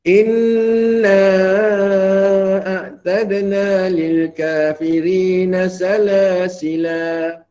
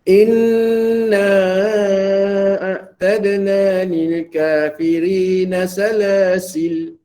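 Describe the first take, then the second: First: The final word ends with a long a vowel. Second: The final word ends on a silent l sound. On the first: "dengan mengekalkan huruf alif" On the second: "membuangnya ... dimatikan lam tu"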